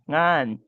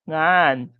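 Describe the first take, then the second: First: The pitch drops low at the end. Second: The pitch drops low at the end.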